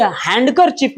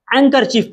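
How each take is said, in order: First: हैंडकरचीफ with an audible D before the K; wrong, D sounded. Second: हैंकरचीफ as hang-ker-chief, no D; silent D. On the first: Tutor shows pupils what not to say, D sounded. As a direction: pronounce the D in हैंडकरचीफ. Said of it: "इसे हैंडकरचीफ नहीं पढ़ते". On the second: Tutor gives pupils the correct reading, D silent. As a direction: drop the D from हैंकरचीफ, nasal straight into K. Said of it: "हैंकरचीफ पढ़ते हैं". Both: Shown as a demonstration.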